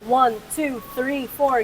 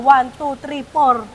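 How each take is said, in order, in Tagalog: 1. Ang bawat numero ay binibigkas nang maingat at pormal. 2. Ang mga numero ay binibigkas nang maluwag at impormal. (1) "Ganun ako, di ba?" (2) "binabali ko na yon"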